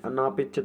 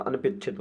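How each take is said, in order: First: अनापेक्षित with a long "naa"; wrong long vowel. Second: अनपेक्षित with short "an-pe"; correct short vowel. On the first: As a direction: stretch the ना in अनापेक्षित. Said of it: "अनापेक्षित नहीं होता". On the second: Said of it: "अनपेक्षित होता है". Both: Shown as a demonstration.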